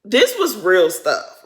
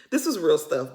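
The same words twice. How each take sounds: First: Slow, loud, weighted on every word; slow heavy emphasis. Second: Said in the usual way. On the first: Real, not acted. Telling viewers the raid was serious, slow loud emphasis. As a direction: lean hard on This was real stuff.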